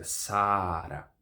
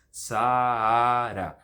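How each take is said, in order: First: Saara with one long held a; low, slow SAA-ra; single long vowel. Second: Saara exaggerated as Saa-AA-ra; very slow Sa-A-ra, second a louder; separate syllables. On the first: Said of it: "Uma vogal longa seria um só". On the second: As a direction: pull the two a's of Saara apart. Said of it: "em sílabas diferentes". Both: Shown as a demonstration.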